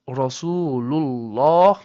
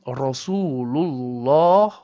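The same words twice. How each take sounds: No difference in how they are said.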